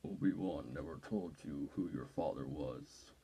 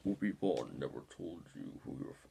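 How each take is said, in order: First: Much lower, slow Vader voice sinking into breath; slow, low menacing Vader, fading to a whisper; Darth Vader impression. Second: Lower, put-on Darth Vader voice, cut off; deep-voice Vader try that breaks off; Darth Vader impression. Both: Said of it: "I can do an impression of him right now".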